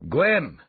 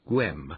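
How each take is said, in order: First: It is said as a sharp command. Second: It is said weakly and half-heartedly.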